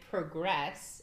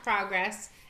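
First: The stress is on the second syllable. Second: The stress is on the first syllable. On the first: It names an action. "Progress is a verb" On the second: It names a thing. "So progress in that sense would be... Noun"

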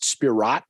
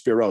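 First: The name ends with a pronounced T sound. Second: The name ends without any T sound. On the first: The speaker calls it wrong. "I pronounced Spirot for a while" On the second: The speaker calls it right. "someone told me it was just Spiro"

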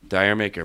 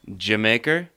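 First: It begins with 'dire', like 'dire maker'. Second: It sounds like the word 'Jamaica'. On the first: The speaker calls it wrong. "Most people refer to it as Dire Maker" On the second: The speaker calls it right. "Do you know how you actually pronounce it?"

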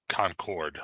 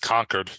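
First: It is pronounced like the airplane's name. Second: It is pronounced like the book title. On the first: The speaker calls it wrong. "not Concord like the airplane" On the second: The speaker calls it right. "It's Concord like the book"

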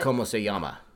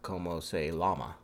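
First: The ll in llama is said like a y. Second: The ll in llama is said like an l. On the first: "L's become a Y" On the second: "instead of"

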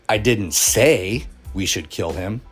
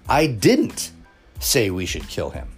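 First: The stress is on the word say. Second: The stress is on the word didn't.

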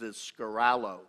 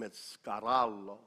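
First: It is said with an American accent. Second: It is said the Italian way, rolled R.

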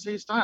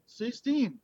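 First: The vowel sounds like 'eye'. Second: The vowel sounds like 'ee'. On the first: "If it's comfortable to say Stein" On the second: "If it's comfortable to say Steen"

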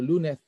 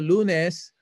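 First: The final S is barely pronounced. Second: The final S is clearly pronounced. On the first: This is the Spanish way of saying it. "kung Spanish, walang S masyado. Lunes, parang ganun" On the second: This is the Filipino way of saying it. "tayo, mga Pilipino, particular tayo sa mga every letter"

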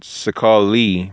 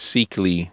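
First: The first syllable has an 'a' vowel. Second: The first syllable has an 'i' vowel. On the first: The speaker calls it wrong. "in another way to, I guess, kind of say it" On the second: The speaker calls it right. "the proper way to say it is Sikli"

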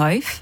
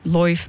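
First: The vowel is the diphthong 'ai'. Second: The vowel is the diphthong 'oi'. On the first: "die ai-klank die komt voornamelijk voor in woorden zoals die een i hebben" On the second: "die ai-klank naar een oi-klank"

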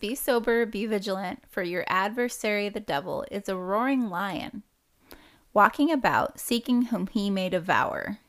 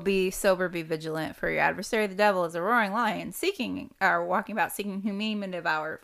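First: It is recited at a slower pace. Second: It is recited at a faster pace.

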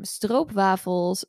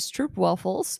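First: It is said with a Dutch pronunciation. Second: It is said with an English pronunciation.

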